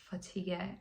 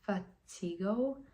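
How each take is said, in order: First: The word ends with a plain 'g' sound. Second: The word ends with an added 'oh' vowel. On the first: The speaker calls it right. "The word was fatigue" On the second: The speaker calls it wrong. "I just pronounced it like it looked"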